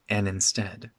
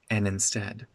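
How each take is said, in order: First: The D drops and 'and' links smoothly. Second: The same.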